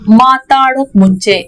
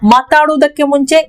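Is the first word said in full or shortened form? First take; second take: shortened; full. First: The first word is said in a shortened form. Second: The first word is said in its full form.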